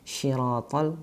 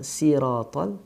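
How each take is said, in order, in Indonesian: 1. Bunyi pertama adalah 'sh' yang desisnya lembut. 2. Bunyi pertama adalah 's' yang desisnya tajam. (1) "bukan si, apalagi shi. Ha, itu kesalahan yang banyak terjadi" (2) "si, ya, so, si, su"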